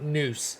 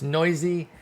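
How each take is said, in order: First: The name sounds like 'noose', one syllable. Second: The name sounds like 'noisy', two syllables. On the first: The speaker calls it wrong. "It's not Noose" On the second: The speaker calls it right. "It's Noisy"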